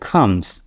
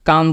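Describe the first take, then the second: First: The first consonant has a strong puff of breath. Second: The first consonant has no puff of breath. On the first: The speaker calls it right. "সির উচ্চারণটা খ হবে" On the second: The speaker calls it wrong. "আমরা যেটা বলতাম কাম বলতাম"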